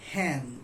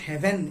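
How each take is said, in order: First: The word has one syllable. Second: The word has two syllables. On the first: This is how it was said in earlier times. "it was one syllable" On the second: This is the modern pronunciation. "not even two syllables like heaven"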